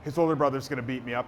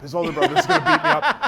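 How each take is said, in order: First: Quick, lower worried aside; mock-scared, rushed to yourself; retold fear. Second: High, loud comic panic; hammed-up fretting with laughter around it; mock scared. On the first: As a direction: imitate fretting under pressure, quickly. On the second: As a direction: blurt it out in pitched-up mock fear. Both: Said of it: "I was so scared".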